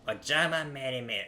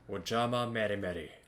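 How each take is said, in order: First: It is said in a high, female voice. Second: It is said in a deep, manly voice. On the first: "How about the female version?" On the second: "Like in the manly way"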